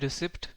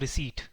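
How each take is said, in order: First: The p sound is clearly pronounced. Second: The p sound is left silent. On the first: The speaker calls it wrong. "इसको रिसिप्ट नहीं बोलते" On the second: The speaker calls it right. "पी kind of silent होता है इसमें"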